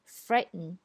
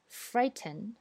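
First: The t sound is held and not heard. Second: The t sound is fully released. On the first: "在美式英语里呢就是frighten" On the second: "在英式英语里这样发"

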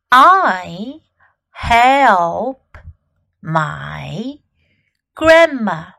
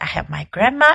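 First: The sentence is spoken slowly. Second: The sentence is spoken at normal speed.

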